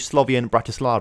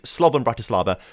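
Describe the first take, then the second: First: The first word has three syllables, Slo-vi-an. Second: The first word has two syllables, Slo-van. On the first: The speaker calls it wrong. "I must be saying it wrong" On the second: The speaker calls it right. "it says Slovan Bratislava, not Slovian"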